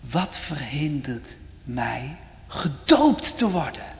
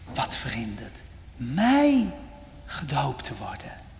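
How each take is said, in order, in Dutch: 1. De klemtoon valt op het woord gedoopt. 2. De klemtoon valt op het woord mij. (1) "Zou dat zijn klemtoon geweest zijn?" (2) "Of zou hij gezegd hebben"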